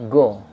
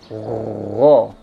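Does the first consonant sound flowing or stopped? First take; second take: stopped; flowing. First: The first consonant is a hard, stopped g. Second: The first consonant is a rough, flowing, heavy sound. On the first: The speaker calls it wrong. "jangan go" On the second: The speaker calls it right. "ngalir suara... dia tebal"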